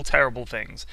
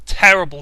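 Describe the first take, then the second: First: Said in the usual way. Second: Terrible hit hard and loud, falling; punched terrible. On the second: Acted. Ranting about bad players, terrible punched loud. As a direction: slam the word terrible down.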